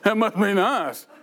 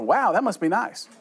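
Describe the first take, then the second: First: It sounds mean and snarky. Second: It sounds sincere and genuinely pleased.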